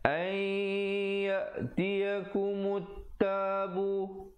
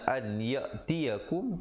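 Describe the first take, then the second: First: The n merges into a nasalized doubled y. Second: The n is pronounced clearly before the y. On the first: This is how it must be recited. The speaker calls it right. "tapi di situ kena baca" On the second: This is the underlying written form. The speaker calls it wrong.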